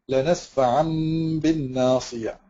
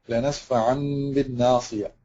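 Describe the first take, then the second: Both takes have the same delivery.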